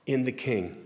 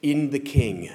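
First: Said in the usual way. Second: Emphasize "In the King" as the new phrase; emphasized phrase. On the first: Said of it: "emphasizing it". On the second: Retold or imitated. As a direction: stress on "In the King", a bit louder and weighty. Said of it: "he highlighted by emphasizing it by saying".

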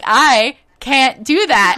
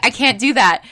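First: Slow, loud, drawn-out protest; higher, louder, mock-desperate insistence; emphatic retold refusal. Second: Firm, slightly raised refusal; mildly louder protest at normal pace; retold refusal. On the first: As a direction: stretch out each word of the refusal. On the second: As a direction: refuse quickly and plainly. First refusal to nurse, retold.

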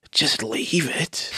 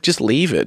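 First: Hushed, slow disbelieving echo; "Just leave it?" echoed in a hushed, slow, disbelieving way; stunned disbelief. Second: Said in the usual way. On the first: Retold or imitated. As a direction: repeat it back, stunned and quiet. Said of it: "And I was like". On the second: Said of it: "He's like".

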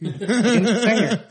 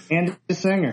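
First: Said through a laugh, higher and louder. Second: Said in the usual way. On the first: Real, not acted. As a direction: blurt it out laughing. Laughing correction of co-host.

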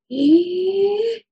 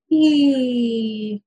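First: High rising "ee" on an in-breath; inhalation phonation. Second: "ee" sliding down on the out-breath; exhalation phonation. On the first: Clinician repeats the exercise, high inhaled "ee". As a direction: draw "ee" upward while breathing in. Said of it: "produce voice on an inhalation". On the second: Clinician repeats the exercise, exhaled descending "ee". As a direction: breathe out on a long falling "ee". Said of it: "come back down on that exhalation". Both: Shown as a demonstration.

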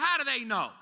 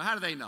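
First: High, louder disbelieving cry; incredulous question. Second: Said in the usual way. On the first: Retold or imitated. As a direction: throw it up in disbelief. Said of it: "I'm like". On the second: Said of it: "You know, how do they know".

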